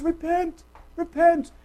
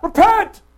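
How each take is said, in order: First: Gentle repentance call. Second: Loud, high shouted command; harsh repentance call. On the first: Preacher shows John's comforting call to repentance, gently. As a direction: plead it kindly, without shouting. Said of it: "It was". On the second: Preacher shows how John did not call people, harsh shout. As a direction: bark it as a fierce demand. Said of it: "repentance call was not". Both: Shown as a demonstration.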